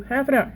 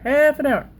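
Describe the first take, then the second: First: Said in the usual way. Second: Half an hour, higher and louder; emphatic repeat. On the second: Real, not acted. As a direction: drive the point home the second time. Repeating the time limit to herself.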